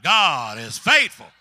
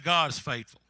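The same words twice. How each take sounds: First: It is hollered very loudly. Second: It is said at normal volume.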